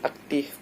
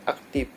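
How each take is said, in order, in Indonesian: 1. Kata ini berakhir dengan bunyi 'f'. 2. Kata ini berakhir dengan bunyi 'p'.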